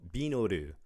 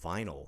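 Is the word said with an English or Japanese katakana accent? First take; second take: Japanese katakana; English. First: It is said with a Japanese katakana accent. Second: It is said with a natural English accent. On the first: The speaker calls it wrong. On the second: The speaker calls it right.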